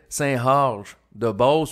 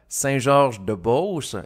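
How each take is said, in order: First: The G sounds like an H, Beauce style. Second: The G sounds like a standard French G.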